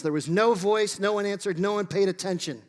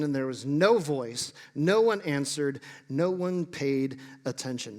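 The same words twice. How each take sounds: First: "no" lifted and pressed a bit harder in each phrase; stress on no. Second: Said in the usual way. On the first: Shown as a demonstration. Preacher repeats the silence for emphasis, stressing "no". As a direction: lean on every "no" to make the silence stark. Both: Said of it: "Notice again the stark silence".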